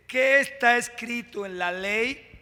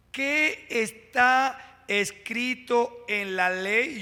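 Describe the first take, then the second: First: Said in the usual way. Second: Very slow, drawing out ¿Qué está escrito en la ley? with QUÉ stretched; slow emphatic repeat. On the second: Shown as a demonstration. Preacher repeats the question to the church, very slow and drawn out. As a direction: let each word of ¿Qué está escrito en la ley? land slowly.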